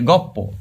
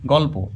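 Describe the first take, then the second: First: গপ্প said with a doubled p, no l; assimilated pronunciation. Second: Said in the usual way. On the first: Shown as a demonstration. Teacher showing students how sounds merge, assimilated গপ্প with double p. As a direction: turn the l into a p in গপ্প. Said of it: "একই ধরনের উচ্চারণ হয়ে যায়". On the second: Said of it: "লটা উঠেই যায় উচ্চারণ করার সময়".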